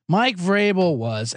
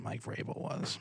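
First: Slow, drawn-out declaration; slow emphatic. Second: Whispered aside. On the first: Host naming the culprit, slow and emphatic. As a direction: spell out the blame word by word. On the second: Host answering himself in a hushed whisper. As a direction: breathe the name like a secret. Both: Acted. Answers his own question twice.

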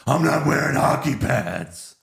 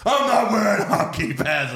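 First: Mock Batman retort. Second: Much higher, louder cartoonish Batman retort; Pete Holmes Batman impression. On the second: Quoting the Pete Holmes Batman parody, high and loud. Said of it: "the Pete Holmes ones".

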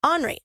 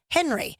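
First: "Henry" as ON-ree, no H; French-style Henry. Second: "Henry" with an H, HEN-ree; plain English name "Henry", H sounded. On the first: Cohost reading autocorrect the French way, "Henry" as ON-ree. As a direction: drop the H, say "Henry" like Henri. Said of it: "That's how you say it in French". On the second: Cohost reporting autocorrect, "Henry" as HEN-ree. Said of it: "it kept coming up". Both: Shown as a demonstration.

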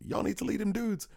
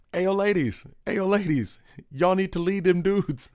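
First: Pitched far up, a silly imitated shout; mock drunken yell. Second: High, hammed-up drunken holler out a car window; a crooner's take on a drunk buddy yelling at strangers, pitched way up. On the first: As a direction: squeak it out like a drunk friend hollering. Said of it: "he leans out and yells". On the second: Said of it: "my best [name] doing [name]".

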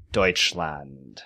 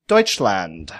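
First: Deutschland repeated softly and lower, DOYTCH-lahnt; Deutschland, lower and softer, the German way. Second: Deutschland said the German way, DOYTCH-lahnt; German pronunciation. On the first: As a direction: quietly say Deutschland again the German way. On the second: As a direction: say Deutschland like a German speaker, as a question. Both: Shown as a demonstration. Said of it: "trying not to butcher the pronunciation".

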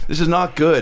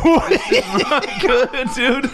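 First: Said in the usual way. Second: High, laughing despair. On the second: Real, not acted. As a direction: laugh it out, higher. Laughing between hiccups.

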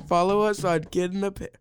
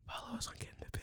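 First: Said in the usual way. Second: Very soft, voiceless whisper. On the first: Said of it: "normal, non-whispering voice". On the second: Real, not acted. Kid whispers the podcast sign-off to tease parent, whispering. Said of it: "non-whispering voice".

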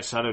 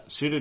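First: "Sutter" said SUT-ter, with an open ah-like vowel; "Sutter" as SAH-der, short open vowel and flapped t; corrected name. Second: "Suter" said SOO-ter, with an oo vowel; mispronounced name. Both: Real, not acted. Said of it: "sorry, Sutter".

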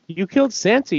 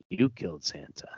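First: "You killed Santa" yelled much higher with "killed" hit hard; jeering, raised voice; mocking shout. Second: "you killed Santa" breathed in a soft, unvoiced whisper; menacing hushed whisper; whispered taunt. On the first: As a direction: taunt her at full volume. Villain taunting Jenny loudly. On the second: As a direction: lean in and hiss it softly. Villain's final quiet taunt.

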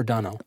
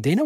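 First: Dano said DAH-no; ah pronunciation. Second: Dano said DAY-no; long-A pronunciation. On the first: Host offering the other surname reading, Dano as DAH-no. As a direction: say "Dano" with an open ah in the first syllable. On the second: Host checking the actor's surname, Dano as DAY-no. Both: Shown as a demonstration. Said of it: "Is it Dano or Dano?".

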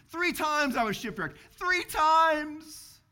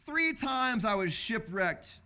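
First: "Three times" hit higher and louder, swelling; emphatic repeat. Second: Said in the usual way. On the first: Shown as a demonstration. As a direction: hammer "Three times" home to the congregation. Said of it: "preacher repeats for emphasis". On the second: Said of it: "reading the verse, then repeating".

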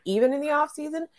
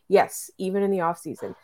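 First: Disbelieving, rising question; asking in mild disbelief; incredulous question. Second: Said in the usual way. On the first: Retold or imitated. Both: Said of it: "People keep asking me".

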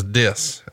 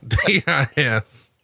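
First: Said in the usual way. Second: D I S spelled letter by letter, slowly. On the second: Shown as a demonstration. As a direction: spell out D I S, each letter apart. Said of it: "it was dis".

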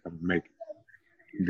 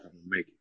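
First: Much softer, slow hushed repeat; slow, hushed vow said again close to her ear; retold whisper. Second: Soft, hushed promise into her ear; a hushed vow, barely voiced; retold whisper. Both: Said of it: "I whispered in her ear".

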